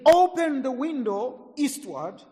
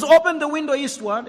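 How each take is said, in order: First: Higher, slow, deliberate command; a prophet's order, drawn out. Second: Much louder, higher repeated order; commanding shout. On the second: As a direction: call it out like a prophet's order. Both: Acted.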